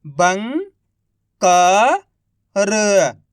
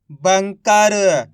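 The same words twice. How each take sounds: First: Each syllable drawn out very slowly; slow syllable-by-syllable reading. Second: Said in the usual way. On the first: Shown as a demonstration. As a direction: sound out सुरंग slowly as सु-रं-ग, one sound at a time. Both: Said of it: "एक अक्षर का उच्चारण करके".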